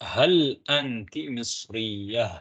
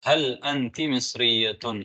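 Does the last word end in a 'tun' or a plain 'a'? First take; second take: a; tun. First: The last word ends on a plain 'a' sound. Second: The last word ends with a full 'tun' ending. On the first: "நாங்க ஹாவுல ஹா சத்தத்துல தான் நிறுத்துவோம்" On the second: "மிஸ்ரியத்துன் என்று சொல்லியிருக்கிறோம்"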